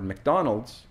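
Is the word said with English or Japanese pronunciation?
English. It is said with English sounds and syllables.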